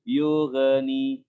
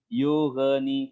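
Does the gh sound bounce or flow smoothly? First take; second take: bounce; bounce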